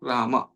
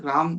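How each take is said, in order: First: The word ends in a short vowel. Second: The word ends on the consonant m. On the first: The speaker calls it right. "Short after माँ" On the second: The speaker calls it wrong. "राम भी नहीं"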